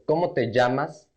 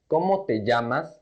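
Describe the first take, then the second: No difference in how they are said.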